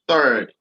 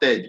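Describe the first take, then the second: First: The vowel sounds like the vowel in bird. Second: The vowel sounds like the vowel in bed. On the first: The speaker calls it right. "This is third, as in bird" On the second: The speaker calls it wrong. "This is not third"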